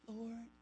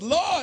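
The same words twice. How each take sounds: First: It is said sweetly and softly. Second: It is said forcefully and upset.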